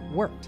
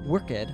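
First: The ending is a short T sound. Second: The ending is said as an extra syllable. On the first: The speaker calls it right. "but worked. Notice that the D in worked actually has a T sound" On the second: The speaker calls it wrong. "we don't pronounce the E in ED verbs. So don't say worked"

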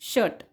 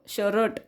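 First: The r is not sounded at all. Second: The r is clearly sounded after a vowel. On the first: The speaker calls it right. "ह्या आरचा उच्चार हा केला जात नाही" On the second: The speaker calls it wrong. "शरट शरट असं नाही म्हणायचं"

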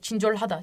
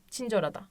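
First: The h sound is clearly pronounced. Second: The h sound is dropped. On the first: The speaker calls it wrong. "Çincorhada diye hızlı söyleyemezsiniz" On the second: The speaker calls it right. "Aslında orijinali Çincorada"

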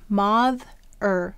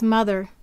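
First: The first vowel is an 'o' sound as in 'moth'. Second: The first vowel is an 'uh' sound. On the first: It is said this way to help with spelling. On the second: This is the normal way the word is said.

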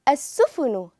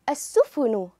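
No difference in how they are said.

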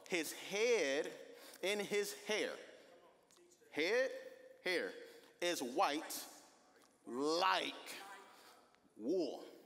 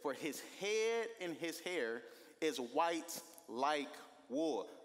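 First: It is said slowly and deliberately. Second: It is said at normal speed.

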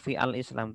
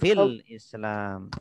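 First: The vowel of the article is pronounced separately. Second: The words run together without the article's vowel. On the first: The speaker calls it wrong. "Tidak perlu" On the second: The speaker calls it right.

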